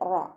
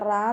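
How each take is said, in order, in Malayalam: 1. ര് കനത്തതാണ്, സ്വരം നിറഞ്ഞതും വൃത്താകൃതിയിലുള്ളതുമാണ്. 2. ര് നേർത്തതാണ്, സ്വരം കനം കുറഞ്ഞതും തുറന്നതുമാണ്. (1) "റോ ഉയർത്തിയിട്ട് ഉച്ചരിക്കുക" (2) "മലയാളത്തിൽ നമ്മൾ റാ എന്ന് പറയുന്നത് പോലെ പറയരുത്"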